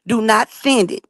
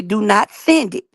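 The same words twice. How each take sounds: First: Said in the usual way. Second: "Do not send it" said slowly, each word weighted; God repeating the order, firm and slow; slow emphatic warning. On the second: Retold or imitated. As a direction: lean on "send" like a firm command. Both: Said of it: "He told me specifically".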